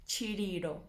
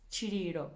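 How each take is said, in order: Both takes have the same delivery.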